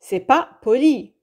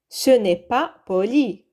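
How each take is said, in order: First: The 'ne' is dropped in a quicker delivery. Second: The 'ne' is clearly pronounced before 'est'.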